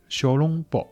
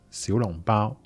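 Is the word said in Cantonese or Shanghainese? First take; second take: Shanghainese; Cantonese. First: It is pronounced in Shanghainese. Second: It is pronounced in Cantonese. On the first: "上海话小笼包" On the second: "广东话呢小笼包"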